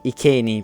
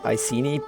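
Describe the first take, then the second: First: The C is sounded like a K. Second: The C is sounded like an S. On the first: This follows classical Latin pronunciation. "I'll be saying Iceni because it comes from the Latin" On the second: This is the common modern pronunciation. "most people would say Iceni"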